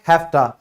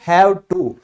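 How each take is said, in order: First: The words blend into one with an f sound. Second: The words are said fully with a v sound. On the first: "उसको अंग्रेज क्या कहते हैं? हैफ्टा" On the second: "फिर next है हैव टू"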